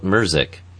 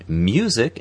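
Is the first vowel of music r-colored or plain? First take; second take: r-colored; plain. First: The first vowel has an r-colored sound. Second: The first vowel is a plain 'you' sound. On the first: The speaker calls it wrong. "not merzik" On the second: The speaker calls it right. "they have to say music"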